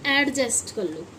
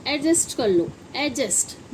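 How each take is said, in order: First: „एडजस्ट” as AD-just; wrong, d sounded. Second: „एडजस्ट” as A-just, no d; silent d. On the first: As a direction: pronounce the d before j in एडजस्ट. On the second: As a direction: go straight from vowel to j in एडजस्ट. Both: Shown as a demonstration. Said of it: "ना कि एडजस्ट कर लो".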